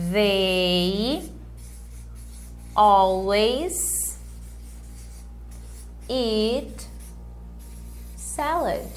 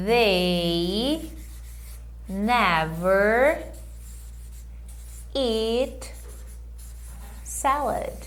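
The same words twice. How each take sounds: First: "They always eat salad" very slow, word by word; slow model sentence. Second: "they never eat salad" very slow, word by word; slow model sentence. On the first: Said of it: "Como é que eu falo sempre". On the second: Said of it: "Vê aí se você consegue". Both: Shown as a demonstration. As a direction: spell it out slowly for learners. (frase modelo lenta, palavra por palavra)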